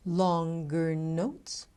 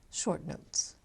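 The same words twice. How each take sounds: First: Slow, stretched-out words; drawn out. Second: Brief, quick and softer; short. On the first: Coach illustrating rhythm with longer notes, drawn out. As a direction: hold the sound long. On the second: Coach illustrating rhythm with short notes, kept short. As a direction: keep each word short. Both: Shown as a demonstration.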